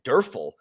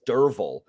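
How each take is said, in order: First: The middle consonant sounds like an f. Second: The middle consonant sounds like a v. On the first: The speaker calls it wrong. "So you would pronounce it Durfel" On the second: The speaker calls it right. "but it's Derval. That's how it's pronounced"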